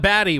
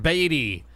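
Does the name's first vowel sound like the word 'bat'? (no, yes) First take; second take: yes; no. First: The first vowel sounds like the word 'bat'. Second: The first vowel does not sound like 'bat'. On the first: The speaker calls it wrong. "Not Batty, which I learned" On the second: The speaker calls it right. "This is [name]"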